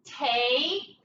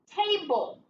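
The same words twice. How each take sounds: First: "Table" in two separate syllables, ta... ble; sounded out. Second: Said in the usual way. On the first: Shown as a demonstration. Teacher decoding for pupils, "Table" syllable by syllable. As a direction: break "Table" apart, holding the first syllable. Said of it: "So what's the word?". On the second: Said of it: "What's the word?".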